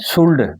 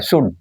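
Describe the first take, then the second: First: An L sound is pronounced before the D. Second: No L sound; the final D is soft. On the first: The speaker calls it wrong. "इसे शुल्ड नहीं बोलना" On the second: The speaker calls it right. "ये शुड होता है, लेकिन ये डी भी कम बोला जाता है"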